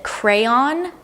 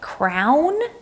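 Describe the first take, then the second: First: It is said as the full form crayon. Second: It is said as one syllable, like crown. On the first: "One of them pronounces it crayon" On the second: "almost like crown"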